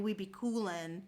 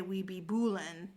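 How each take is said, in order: First: Said in the usual way. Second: "boolin'" starting with B in place of C; C changed to B. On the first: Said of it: "So instead of being". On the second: Shown as a demonstration. Explaining Bloods slang, "boolin'" with a B for coolin'. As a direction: swap the C for a B: "boolin'". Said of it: "they would change the first letter".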